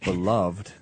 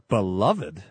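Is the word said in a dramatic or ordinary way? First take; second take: ordinary; dramatic. First: It is said in an ordinary, everyday way. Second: It is said in a grand, old-fashioned way. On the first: "the normal pronunciation" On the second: "it's like listen, we're in some Victorian drama"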